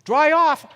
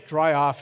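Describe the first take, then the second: First: "Dry off?" thrown back much higher and louder; incredulous echo. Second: Said in the usual way. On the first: Retold or imitated. Wife echoing her husband's "Dry off?", high and incredulous. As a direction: echo "Dry off?" in shocked disbelief. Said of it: "What do you mean dry off?".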